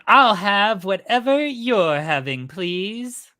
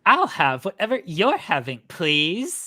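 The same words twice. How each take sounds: First: The voice sounds plain, with little valley-girl pitch. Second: The voice sounds more valley-girl, with more pitch play. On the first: The speaker calls it wrong. "It's not Valley Girl at all" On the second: The speaker calls it right. "A little better"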